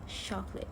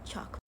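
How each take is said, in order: First: The word begins with a sh sound. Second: The word begins with a ch sound. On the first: The speaker calls it wrong. "the pronunciation by the speakers sound as chocolate" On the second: The speaker calls it right. "the correct pronunciation should be chocolate"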